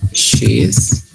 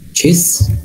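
First: It is said as two full separate words. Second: It is said as one short contracted word.

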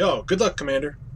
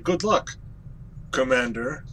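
First: It flows as one smooth phrase. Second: It sounds broken up, with a break before Commander.

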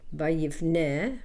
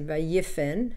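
First: The word ends in a vowel sound. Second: The word ends in a consonant sound. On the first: The speaker calls it wrong. "we don't say vayifne" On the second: The speaker calls it right. "we say vayifen, it loses the hey"

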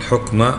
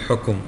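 First: The middle consonant is followed by no vowel. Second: The middle consonant is followed by a vowel. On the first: The speaker calls it right. "سكن تسلم، قل حكم" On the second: The speaker calls it wrong. "ما تقول حكم"

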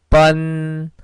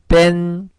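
First: The vowel sounds like 'uh'. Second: The vowel sounds like 'eh'. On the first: The speaker calls it right. "이렇게 발음하셔야겠죠" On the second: The speaker calls it wrong. "이런 식으로 발음하시는 분도 계셨는데, 그렇게 발음하면 안 되겠죠"

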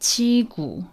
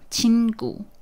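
First: The first syllable's final consonant is left out. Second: The first syllable's final consonant is clearly pronounced. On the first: The speaker calls it wrong. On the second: The speaker calls it right.

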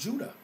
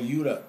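First: The name begins with a J sound. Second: The name begins with a Y sound. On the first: This is the usual modern name. "the so-called tribe of Judah" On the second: This is how the people themselves called it. "as they would be called. J was no such thing as a J"

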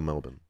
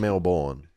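First: The second syllable is reduced to a weak vowel. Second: The second syllable is full, like born. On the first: This is how people actually say it. "But people say Melbourne" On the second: This is how the word is spelled. "it's spelled like Melbourne"

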